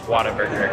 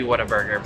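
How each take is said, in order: First: It is pronounced the way local Texans say it. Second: It is pronounced the way the spelling suggests. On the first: The speaker calls it right. "apparently the way you say it is Whataburger" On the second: The speaker calls it wrong. "it looks like it's supposed to be Whataburger"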